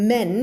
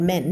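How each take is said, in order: First: "men" ending cleanly on N; clean, simple "men"; corrected pronunciation. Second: "men" with a stray D or T on the end, like "mend"; wrong ending demo. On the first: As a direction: hold the N of "men" with no consonant after it. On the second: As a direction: close "men" wrongly on an extra stop consonant. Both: Shown as a demonstration. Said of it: "not men".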